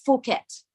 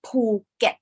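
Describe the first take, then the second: First: "Phuket" as Foo-ket, starting on F; English mispronunciation. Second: "Phuket" slowly as Poo... get, with a P; correct Thai pronunciation. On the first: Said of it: "this word is not Phuket". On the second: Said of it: "it's Phuket". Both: Shown as a demonstration.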